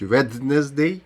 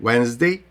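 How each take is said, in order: First: "Wednesday" with the silent d sounded out, slowly; learner's overcareful "Wednesday", every written consonant voiced; mispronounced Wednesday. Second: "Wednesday" as WENZ-day, first d left out; correct silent d. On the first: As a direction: say "Wednesday" as WED-nez-day, dwelling on the d. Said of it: "обов'язково вимовити, кажуть Wednesday". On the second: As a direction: say "Wednesday" in two syllables, no d before the n. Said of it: "Д не буде вимовлятися у словах Wednesday". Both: Shown as a demonstration.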